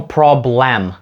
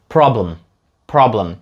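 First: The last syllable's vowel is pronounced fully and clearly. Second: The last syllable's vowel is reduced, sounds merge together. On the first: The speaker calls it wrong. "Ми не кажемо problem. Звучить жахливо" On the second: The speaker calls it right. "Тобто оці останні звуки просто зливаються"

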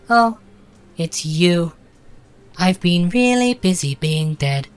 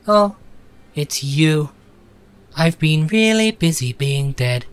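First: The voice sounds lighter and less masculine. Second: The voice sounds deep and masculine. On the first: The speaker calls it right. "Let's raise it by a tiny bit" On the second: The speaker calls it wrong. "that sounds very masculine"

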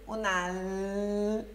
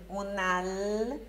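Both takes have the same delivery.

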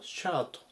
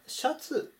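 First: It is said with English-like sounds. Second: It is said with Japanese loanword sounds. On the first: "英語だとシャートというふうに発音します" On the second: "これはシャツのことなんですけども"

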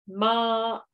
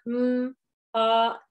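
First: The word is said as one unbroken unit. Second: The word is split into two separate parts. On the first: The speaker calls it right. "now let's do this the way we would do it when we read" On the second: The speaker calls it wrong. "So instead of m, op, that's fine to practice that"

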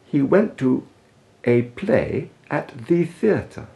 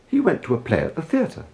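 First: The vowels in 'a' and 'the' are lengthened. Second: The vowels in 'a' and 'the' are short, reduced. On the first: The speaker calls it wrong. "To lengthen the vowels in these little words is as illogical as it is unpleasant" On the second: The speaker calls it right. "He didn't"

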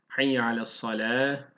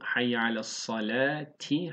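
First: The last word ends with an h sound. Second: The last word ends with a t sound. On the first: The recitation stops at this word. "Ama duracaksak" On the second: The recitation continues without stopping. "Geçerken bu"

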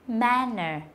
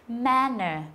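No difference in how they are said.

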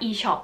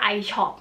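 First: The first vowel sounds like 'ee'. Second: The first vowel sounds like English 'eye'. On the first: The letter is read the German way. "เพราะว่าตัว i อ่ะที่เยอรมันมันอัดออกเสียงเป็นตัว e" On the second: The letter is read the English way. "แพรเรียกร้านเนี้ยว่า"

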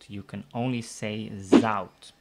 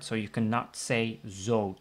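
First: The vowel glides like 'ow' in cow. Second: The vowel is a plain 'o' sound. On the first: The speaker calls it right. "You can only say" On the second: The speaker calls it wrong. "So you cannot say"

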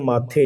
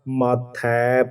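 First: The word ends in a plain 'e' vowel. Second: The word ends in an 'ai' vowel. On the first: The speaker calls it wrong. "ਇਹਨੂੰ ਮਾਥੇ ਨਹੀਂ ਪੜ੍ਹਨਾ" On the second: The speaker calls it right. "ਮਾਥੈ ਪੜ੍ਹਨਾ"

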